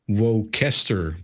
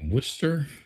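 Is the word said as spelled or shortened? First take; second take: as spelled; shortened. First: The word is pronounced the way it is spelled. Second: The word is pronounced shorter than its spelling. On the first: The speaker calls it wrong. "it's spelled like it's Worcester" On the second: The speaker calls it right. "I think it's supposed to be Worcester"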